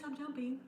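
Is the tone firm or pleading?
pleading. It is said softly, in a pleading tone. The dog hears it as an invitation to keep playing. The speaker calls it wrong. "It doesn't matter if you say, no, please"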